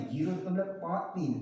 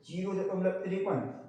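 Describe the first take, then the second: First: "zero दशमलव पाँच तीन" with each digit after the point said separately, पाँच then तीन; correct way to read a decimal. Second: "zero दशमलव तिरपन" read with the digits after the point joined as one number, तिरपन; wrong way to read a decimal. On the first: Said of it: "उसको हम एक एक करके बोलते हैं". (दशमलव के बाद "पाँच तीन" अंक-अंक अलग करके बोलना) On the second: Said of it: "ये बोलने का तरीका बहुत गलत है". (दशमलव के बाद "तिरपन" एक संख्या की तरह बोलना) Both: Shown as a demonstration.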